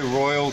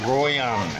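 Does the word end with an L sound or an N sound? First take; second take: L sound; N sound. First: The word ends with an L sound. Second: The word ends with an N sound. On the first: Locals will not understand it. The speaker calls it wrong. "don't say Royal to the Thais" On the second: Locals will understand it. The speaker calls it right. "You gotta say Royan"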